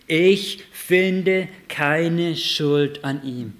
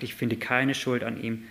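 First: Slow, loud and higher solemn pronouncement; Pilatus' verdict. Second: Said in the usual way. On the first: Acted. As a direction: declare it slowly like a judge.

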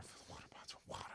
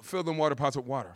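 First: Fast, unvoiced whisper; whispered instruction. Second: Said in the usual way. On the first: Jesus quietly repeats the order to servants, whispering. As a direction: hush it like a secret order.

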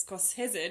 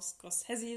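First: Scorsese said the Italian way, drawn out; slow, Italian-style Scorsese; Italian pronunciation. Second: Scorsese in the alternative pronunciation. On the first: Podcaster showing the version she finds lovely, Italian pronunciation. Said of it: "wenn man ihn italienisch ausspricht". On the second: Podcaster citing Wikipedia's variant to her co-host, alternative pronunciation. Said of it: "Auch wenn Wikipedia sagt, man kann auch". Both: Shown as a demonstration.

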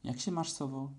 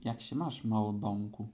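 First: Lightly squeaked little-one's hello; a mild, slightly raised squeak of a greeting; squeaky greeting. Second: Courteous reply to a little one; gently polite, more settled greeting. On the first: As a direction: pipe it up lightly, like a little one. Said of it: "zapiszczało". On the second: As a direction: answer with mild, measured courtesy. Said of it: "powiedziała sowa bardzo uprzejmie". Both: A narrator's reading.

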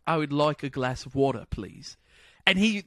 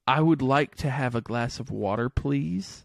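First: Convincing put-on British; British accent attempt. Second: Lightly imitated British model phrase; measured, polite request with a hint of British; British friend's example. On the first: American copying friend's phrase on FaceTime, good British accent. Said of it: "I did it". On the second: Welsh friend giving a British phrase to copy, lightly British. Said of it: "the first one he said".

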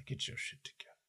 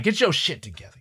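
First: Whispered pep talk, no voice; whispered self-command. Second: Said in the usual way. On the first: Real, not acted. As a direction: hiss it to yourself under your breath. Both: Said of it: "Gotta do some goddamn breathing exercises".

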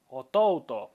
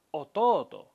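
First: Otouto with a sounded u; the wrong way: otouto as o-to-u-to. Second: Ototo with a long o, no u; the correct way: ototo, stretched o; right ototo. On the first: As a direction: otouto with the u spoken. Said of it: "no decimos otouto". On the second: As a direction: ototo held on the second o. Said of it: "decimos ototo". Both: Shown as a demonstration.

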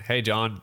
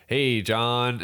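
First: Said in the usual way. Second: Put-on "Hey, John." in a light American accent. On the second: Quoting a stranger in the pub toilet in a light American accent. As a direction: greet John like a mild American guy. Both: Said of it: "I did that in an American accent".

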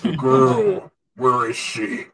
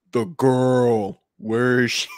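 First: Tries solemn but cracks up; solemn line lost to giggles; solemn voice breaking into laughter. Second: Solemn Kylo Ren through a voice changer; grave, pitch-shifted villain line. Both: Acted. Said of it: "just as solemnly as you can".

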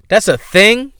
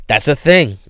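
First: High, rising disbelief on THING; incredulous question. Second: Falling statement on THING; resigned acceptance. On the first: Host astonished that Instagram apartments exist, incredulous question. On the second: Host accepting that Instagram apartments exist, stunned statement. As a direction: concede it in disbelief, "thing" dropping at the end. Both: Real, not acted.

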